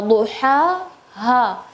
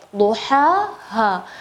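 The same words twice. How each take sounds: First: Duha with a plain h from the throat; duha, ha with a light h; wrong ha. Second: Duha with a breathy mid-throat ha; correct ha. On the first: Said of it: "Tadi semua duha". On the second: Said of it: "di bagian tengah-tengah tenggorokan". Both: Shown as a demonstration.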